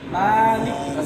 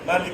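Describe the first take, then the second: First: The first vowel is drawn out long. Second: The first vowel is short, not drawn out. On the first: The speaker calls it right. "টান আছে দিতে হবে" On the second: The speaker calls it wrong. "যদি আমরা বলি মালিক ইয়াউমিদ্দিন তাহলে কি পড়া হয়েছে ... সম্পূর্ণ ভুল"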